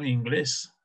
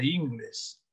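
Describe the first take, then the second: First: The stress falls on the last syllable. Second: The stress falls on the first syllable. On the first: It refers to the English language. The speaker calls it right. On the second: It refers to the hips. The speaker calls it wrong. "para que no diga"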